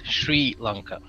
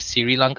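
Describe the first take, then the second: First: The first word begins with an sh sound. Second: The first word begins with an s sound. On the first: The speaker calls it right. "Shri, as in S H, like she, but add a R" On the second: The speaker calls it wrong. "like like as in Siri from Apple"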